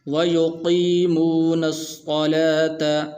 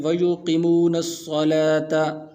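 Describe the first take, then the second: First: وَيُقِيمُونَ sung slowly with the قِي held long; correct lengthened reading. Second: وَيُقِيمُونَ with the یا after قاف kept short; wrong short reading. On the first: Teacher modelling the correct long وَيُقِيمُونَ for students. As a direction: draw out the قِي of وَيُقِيمُونَ in a slow chant. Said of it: "اس کو اس طرح پڑھنا ہے". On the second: Teacher imitating how some students misread وَيُقِيمُونَ. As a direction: rush the قِي in وَيُقِيمُونَ short, as a mistake. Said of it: "بعض حضرات اس کو پڑھتے ہیں". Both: Shown as a demonstration.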